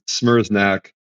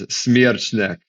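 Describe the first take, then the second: First: The surname has an Americanized pronunciation. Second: The surname has a Polish pronunciation. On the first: "the Americanized is" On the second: "Polish version is"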